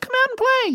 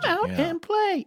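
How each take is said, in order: First: It is said in a casual, modern way. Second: It is said in a formal, old-fashioned cadence. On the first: It sounds like a child of today. "which today a kid might be like" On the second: It sounds like a child from long ago. "the cadence of somebody that lived a long time ago ... feels kind of old-timey ... it seems almost formal"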